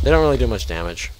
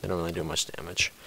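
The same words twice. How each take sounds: First: Fast, louder first take of the claim; louder, quicker claim. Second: Softer, lower-key restatement; quiet repeat. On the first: Gamer assuring viewers about creeper damage, brisk and louder. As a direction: say it briskly up front. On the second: Gamer repeating the damage claim to himself, softer. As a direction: drop the voice for the repeat. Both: Real, not acted.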